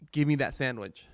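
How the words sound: It is said in a demanding tone.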